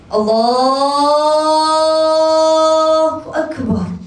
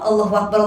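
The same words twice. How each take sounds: First: It is said slowly and solemnly. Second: It is said hurriedly and quickly.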